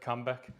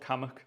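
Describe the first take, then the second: First: The name is said with a clear b sound. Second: The name is said without any b sound. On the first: This is how an outsider would guess it. The speaker calls it wrong. "there's a place that I would pronounce as Kirk Cambeck" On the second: This is how the place is actually called. The speaker calls it right. "It's called Cammock"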